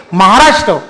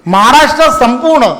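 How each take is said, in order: First: Said in the usual way. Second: Maharashtra lifted higher with a falling close; rousing emphasis on Maharashtra. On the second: Real, not acted. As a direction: proclaim Maharashtra to the crowd. Builds up to state's rank.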